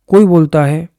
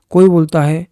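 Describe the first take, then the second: No difference in how they are said.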